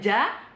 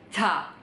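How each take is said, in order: First: The consonant sounds like a full voiced j. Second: The consonant blends ch tongue position with voicing. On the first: The speaker calls it wrong. "Bukan ja" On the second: The speaker calls it right. "tapi ca"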